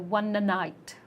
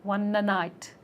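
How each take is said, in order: Both takes have the same delivery.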